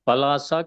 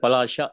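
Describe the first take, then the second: First: The middle consonant is a plain s sound. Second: The middle consonant is a palatal sh sound. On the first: The speaker calls it wrong. "కాదు" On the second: The speaker calls it right. "తాళవ్యం"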